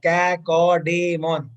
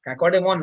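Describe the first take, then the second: First: Drawn out slowly. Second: Said in the usual way. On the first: Shown as a demonstration. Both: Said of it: "नाम बोलने में कितना अजीब लग रहा है".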